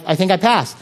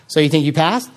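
First: Said in the usual way. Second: "you think you passed" repeated back with a rise on PASSED; echo question. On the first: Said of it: "You just repeat". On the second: Retold or imitated. Listener checking on the assignment, repeating "passed" as a rising question. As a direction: hand the statement back as a question, lifting "passed" at the end. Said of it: "you repeat back".

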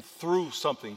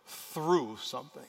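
First: Said in the usual way. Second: "through" drawn out slowly, then "something"; stress on THROUGH. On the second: Shown as a demonstration. Preacher repeating the key word, slow stress on "through". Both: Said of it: "key word".

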